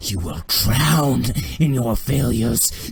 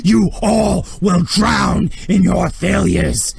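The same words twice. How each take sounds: First: Slow, loud menace; wrathful condemnation. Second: Slow, high, roaring condemnation; furious shout. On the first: Thrawn to the man choking on blood, slow wrathful condemnation. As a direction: pronounce it slowly as a furious death sentence. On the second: Thrawn raging at all his watching officers, furious slow shout. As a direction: bellow each word at the whole room. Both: Acted.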